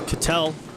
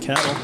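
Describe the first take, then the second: First: The name does not sound like cattle. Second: The name sounds like the word cattle. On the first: The speaker calls it right. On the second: The speaker calls it wrong.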